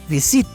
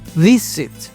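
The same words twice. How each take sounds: First: The stress is on the last syllable. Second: The stress is on the first syllable. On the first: The speaker calls it wrong. "no es visit" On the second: The speaker calls it right. "la sílaba tónica aquí es al principio"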